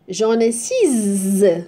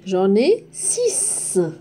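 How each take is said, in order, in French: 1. Le x ne se prononce pas comme un son s. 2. Le x se prononce comme un son s. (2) "la lettre X se prononce S"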